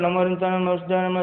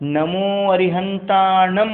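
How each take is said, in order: First: The words are mumbled together and cut short. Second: Every syllable is pronounced fully and distinctly. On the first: The chant will bring no benefit. The speaker calls it wrong. "ನಮ್ಮೂರಂತ ನಮ್ಮ ಹಿಂಗಂದ್ರೆ ಸಿಗ" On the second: The chant will bring its benefit. The speaker calls it right. "ಪೂರ್ತಿ ಬರಬೇಕು"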